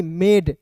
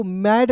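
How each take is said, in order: First: "मेड" with a long e vowel; correct reading. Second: "मैड" with an open ai vowel; wrong reading. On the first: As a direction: say MAID as "मेड", AI sounded as ए. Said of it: "उच्चारण ए के रूप में". ("मेड", ए स्वर वाला सही उच्चारण) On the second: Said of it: "मैड नहीं". ("मैड", खुले ऐ स्वर वाला गलत उच्चारण) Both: Shown as a demonstration.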